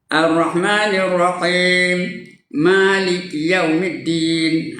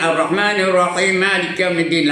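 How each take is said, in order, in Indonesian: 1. Ada jeda napas setelah Rahim. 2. Rahim langsung sambung ke Malik tanpa berhenti. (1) "tarik nafas dulu" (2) "Jangan ... lagi salah"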